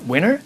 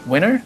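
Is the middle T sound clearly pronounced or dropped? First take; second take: dropped; dropped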